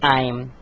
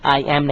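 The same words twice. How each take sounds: First: The words merge into one contracted syllable. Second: Two separate full words are pronounced. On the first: The speaker calls it right. "आपको कहना पड़ेगा आई एम" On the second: The speaker calls it wrong. "आप आई एम नहीं कह सकते"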